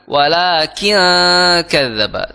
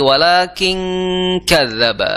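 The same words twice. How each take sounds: First: The n is said without nasal hiding. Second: The n glides straight into a nasal ang. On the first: The speaker calls it wrong. "Jangan sampai" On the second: The speaker calls it right. "langsung ke angnya"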